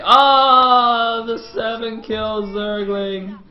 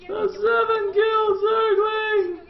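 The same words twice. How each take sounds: First: Long, high drawn-out wail; slow hammed-up lament, loud then fading; mock mourning. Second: Very high, slow squeaky wail; hammed-up lament pushed up into falsetto; mock grieving squeal. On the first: Caster mourning the seven kill Zergling, mock wail. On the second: Caster mourning the dead Zergling, squealing mock grief.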